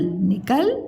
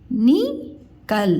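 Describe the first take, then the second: First: Said in the usual way. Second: निकल split slowly into नि and कल; syllable by syllable. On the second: Shown as a demonstration. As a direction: sound out निकल with a pause after नि. (निकल को अलग-अलग तोड़कर, धीरे) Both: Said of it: "उच्चारण ऐसे में करके बताया करूँ".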